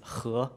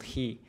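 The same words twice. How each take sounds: First: It is pronounced with the Chinese sound. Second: It is pronounced with the English sound. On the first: The speaker calls it right. "The pronunciation is he" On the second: The speaker calls it wrong. "not he"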